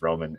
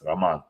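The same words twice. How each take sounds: First: The name is said with an American pronunciation. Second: The name is said with a Ukrainian pronunciation. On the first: "Nobody says Roman in in the" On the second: "it's Roman in the Ukraine"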